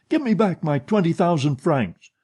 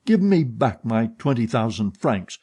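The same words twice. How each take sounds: First: Angrier repeated demand. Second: Said in the usual way. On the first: Acted. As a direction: Give pushed higher and harder in the repeat. Demanding money from his partner.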